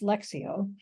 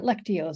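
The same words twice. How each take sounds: First: The middle consonants are sounded like x. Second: The middle consonants are not sounded like x. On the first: The speaker calls it right. "you do pronounce it as an X" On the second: The speaker calls it wrong. "it's not Lectio"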